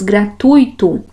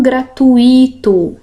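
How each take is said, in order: First: Gratuito said gra-TUI-to, ui in one syllable; gratuito with diphthong. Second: Gratuito mispronounced gra-tu-Í-to, slowly; wrong-way gratuito in four syllables, stress on i; gratuito with hiatus. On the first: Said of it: "Aqui a gente tem um ditongo". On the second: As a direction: stretch a stressed í in gratuito, apart from the u. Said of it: "Não é assim que eu devo pronunciá-las". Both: Shown as a demonstration.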